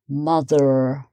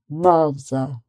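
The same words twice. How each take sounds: First: The final R is clearly sounded. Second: The final R is dropped, ending in a schwa. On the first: "an American might say mother, mother, and you get more of the R sound" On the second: "but in British English, um, you get mother"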